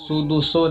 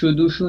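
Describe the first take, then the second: First: It uses s sounds and ends in o. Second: It uses sh sounds and ends in u. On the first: "या सुदुसो नहीं होना चाहिए" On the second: "इसमें शुदुशु नहीं होना चाहिए"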